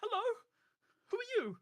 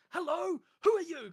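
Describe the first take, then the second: First: High, loud friendly yell of a greeting; screaming greeting. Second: Much higher and louder friendly shout; top of his lungs. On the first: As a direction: call out loud and cheery. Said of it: "Yoke screams this". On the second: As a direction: belt it out like a cheerful giant. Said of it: "shouting this at the top of his lungs". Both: Acted.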